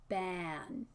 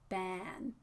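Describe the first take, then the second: Both takes have the same delivery.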